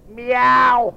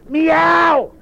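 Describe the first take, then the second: First: A cat's meow from the cow; a playful cat meow for the children. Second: A high, loud, insistent meow; the cat's meow with louder emphasis; the cow meows louder and higher. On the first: Cow answers the doctor. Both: Acted.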